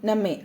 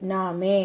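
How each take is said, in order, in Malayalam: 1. ആദ്യത്തെ സ്വരാക്ഷരം ഹ്രസ്വമായി ഉച്ചരിക്കുന്നു. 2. ആദ്യത്തെ സ്വരാക്ഷരം ദീർഘമായി ഉച്ചരിക്കുന്നു. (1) "അത് കുർസായനെ" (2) "ആ എന്നുള്ളത് അവിടെ ലോങ് ആണ്"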